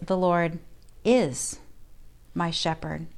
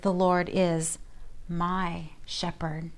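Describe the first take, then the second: First: The stress is on the word is. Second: The stress is on the word my.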